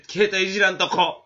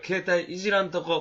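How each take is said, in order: First: Emphatic. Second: Said in the usual way. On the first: Acted. Repeats resolution emphatically.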